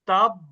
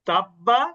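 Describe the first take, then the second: First: The word ends on a doubled consonant. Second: The word ends with a short vowel. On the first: The reader stops after this word. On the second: The reading continues into the next word.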